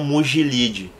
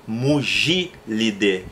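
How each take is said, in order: First: "Mugilide" run together with stress on LI; wrong paroxytone stress. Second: "Mugilidae" broken up, stressed on GI; correct proparoxytone stress. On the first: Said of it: "como se fosse uma paroxítona". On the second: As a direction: say "Mugilidae" as mu-GI-li-de, deliberately. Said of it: "a família é Mugilidae e não Mugilide". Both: Shown as a demonstration.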